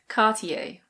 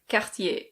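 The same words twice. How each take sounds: First: It is said with a British pronunciation. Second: It is said with a French pronunciation. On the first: "In British English, we say Cartier" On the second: "In French, this is pronounced Cartier"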